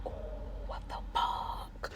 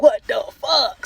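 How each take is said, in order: First: Shocked whisper. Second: Loud, slow disbelieving outburst; shocked shout. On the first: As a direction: gasp it out under your breath. Quiet shocked reaction to discovery. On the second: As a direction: blurt it out in outrage. Loud shocked reaction to discovery. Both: Retold or imitated.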